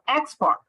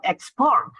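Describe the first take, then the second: First: "export" with the first syllable punched higher; stress on first syllable. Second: "export" with the weight on the last syllable; stress on second syllable. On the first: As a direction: hit the start of "export". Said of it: "it will sound, uh, strange or uncommon". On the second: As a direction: lean on the end of "export". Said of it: "not export". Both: Shown as a demonstration.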